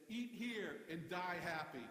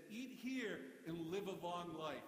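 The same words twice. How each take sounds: First: Slow, deliberate punchline slogan; billboard slogan. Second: Slow, deliberate slogan read; billboard slogan. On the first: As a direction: deliver the sign slowly for the joke. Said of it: "the barbecue place right next door said". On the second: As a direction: read it like a sign, slowly. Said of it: "and it said". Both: Shown as a demonstration.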